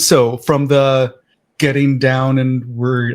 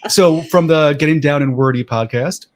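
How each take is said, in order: First: It is said hesitantly, without confidence. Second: It is said firmly, with confidence.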